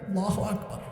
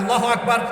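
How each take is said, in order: First: It is said with deep, heartfelt emotion. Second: It is said flatly, without emotion.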